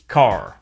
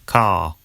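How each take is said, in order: First: It is said in an American accent, R sounded. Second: It is said in a British accent, R dropped.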